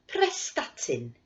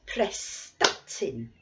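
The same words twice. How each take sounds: First: Said in the usual way. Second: Prestatyn slow, the middle syllable sta pressed hard; stress on sta. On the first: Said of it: "I'll say the place name". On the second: Shown as a demonstration. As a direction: clap on sta in Prestatyn, slowly. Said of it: "we'll clap on the stress".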